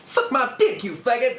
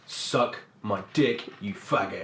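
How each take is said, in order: First: It is said in a light, joking tone. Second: It is said in a hostile, aggressive tone.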